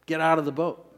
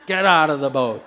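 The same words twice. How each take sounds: First: Said in the usual way. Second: Much louder, forceful command; said like you mean it. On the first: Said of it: "Turn to your neighbor and say". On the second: Shown as a demonstration. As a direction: shout it with conviction. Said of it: "Say it like you mean it".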